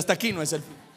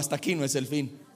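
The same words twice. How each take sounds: First: It is said louder and more forcefully. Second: It is said at normal volume.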